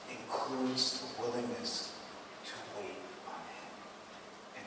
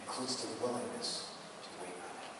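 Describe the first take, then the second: First: Slow, much softer, drawn-out delivery; a quiet, deliberate close; slow and hushed. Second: Faster repeat, still soft; a quick echo of the line; brisk restatement. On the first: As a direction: let each word settle. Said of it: "slowed, hushed emphasis". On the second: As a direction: run it through quickly once more. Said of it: "repeated faster". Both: Shown as a demonstration.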